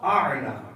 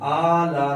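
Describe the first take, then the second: First: It begins with a tight sound from the throat. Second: It begins with a plain vowel, no throat sound. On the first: The speaker calls it right. "इस अलिफ को इस आइन के साथ मिलाना है" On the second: The speaker calls it wrong. "आला नहीं है"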